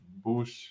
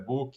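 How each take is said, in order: First: The name ends in a sh sound. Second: The name ends in a k sound. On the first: "pelo português brasileiro, todo mundo vai, deve te chamar de Bush" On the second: "com a pronúncia como se fosse um K"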